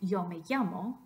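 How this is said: It is said in a Mexican accent. "someone from Mexico who said"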